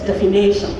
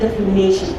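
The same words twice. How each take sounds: First: The ending sounds like 'nation'. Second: The ending sounds like 'nition'. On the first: The speaker calls it wrong. "You write D E F I N A T I O N and say it is" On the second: The speaker calls it right. "Instead of"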